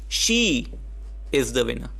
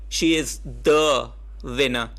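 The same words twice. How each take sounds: First: The word she carries the emphasis. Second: The word the carries the emphasis.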